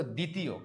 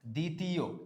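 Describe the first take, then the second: First: Said in the usual way. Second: দ্বিতীয় sounded out as "di-ti-yo", no v sound; measured model reading of দ্বিতীয় as "di-ti-yo"; careful pronunciation. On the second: Shown as a demonstration. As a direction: say দ্বিতীয় deliberately, each syllable held. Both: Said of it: "এরপরে কি".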